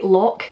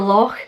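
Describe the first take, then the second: First: The final consonant is plain, not throaty. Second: The final consonant is harsh and throaty, like spitting. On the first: The speaker calls it wrong. "I genuinely get a little bit annoyed when people say loch" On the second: The speaker calls it right. "for loch"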